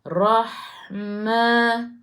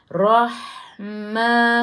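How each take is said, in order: No difference in how they are said.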